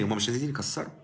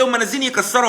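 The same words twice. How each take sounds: First: Calm correction. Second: Higher, louder mock insistence; imitating the objector. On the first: Shown as a demonstration. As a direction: answer quietly and firmly. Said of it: "هقول لك تاني". (رد هادئ وحازم بصوت أخفض) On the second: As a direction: throw the objection back as someone else's claim. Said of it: "هتقول لي". (تقليد المعترض بصوت أعلى وأقوى)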